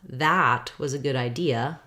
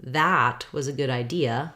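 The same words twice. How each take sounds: First: The word 'that' is stressed with a clear vowel. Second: The same.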